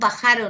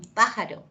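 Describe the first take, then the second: First: The stress falls on a later syllable. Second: The stress falls on the first syllable. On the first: The speaker calls it wrong. "no es" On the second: The speaker calls it right. "es un pájaro"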